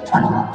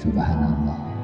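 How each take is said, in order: First: The phrase is rattled off quickly, in rapid succession. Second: The phrase is said slowly and deliberately. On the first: The speaker calls it wrong. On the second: The speaker calls it right.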